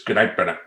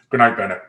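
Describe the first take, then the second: First: Firm, low goodnight; stern dad voice. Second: Firm, louder goodnight; stern dad voice. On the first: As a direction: set the boundary like a strict father. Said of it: "in my stern dad voice". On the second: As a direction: close the talk like a strict father. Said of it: "I have to play that role". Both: Retold or imitated.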